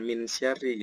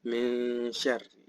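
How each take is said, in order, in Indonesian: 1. Bunyi n diucapkan dengan jelas dan tegas. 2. Bunyi n kabur menjadi sengau yang lembut. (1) "Bukan min bukan min syarri gitu ya" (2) "Tapi min syarri. Samar dia"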